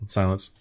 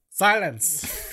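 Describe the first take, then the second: First: "Silence" said low; low command. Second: "Silence" pitched high, then falling; high command. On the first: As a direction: drop the pitch on "Silence". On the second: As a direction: start "Silence" high and let it fall. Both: Pretend. Two takes of one command.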